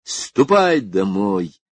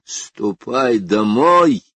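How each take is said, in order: First: Slow, drawn-out command to leave; firm, measured angry order; stern order. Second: Loud, very slow threatening command; menacing order, drawn out with force. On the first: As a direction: send someone away sternly and slowly. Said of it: "крикнул он". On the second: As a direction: stretch each word into a threat. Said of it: "грозно повторил он". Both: A narrator's reading.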